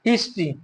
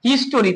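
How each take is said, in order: First: The ending sounds like 'tree', two syllables. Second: The ending sounds like 'story', three syllables. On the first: The speaker calls it right. "ওটার উচ্চারণ সাধারণত ট্রি হয়" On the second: The speaker calls it wrong. "আমরা এটাকে অনেকে বলি হিস্টোরি"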